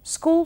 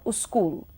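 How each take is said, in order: First: Said with no added vowel sound. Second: An 'u' vowel is added before the s.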